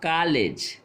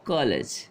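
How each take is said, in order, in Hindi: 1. पहला स्वर लंबा 'aa' वाला ध्वनि है। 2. पहला स्वर खुला 'o' वाला ध्वनि है। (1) "अगर हम ये अर्धचंद्र बिंदु हटा लेते हैं तो क्या बोलेंगे? इसको बोलेंगे तब कॉलेज। कॉलेज नहीं होता है" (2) "क्या होता है? कॉलेज।"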